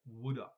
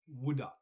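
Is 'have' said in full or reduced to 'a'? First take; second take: reduced; reduced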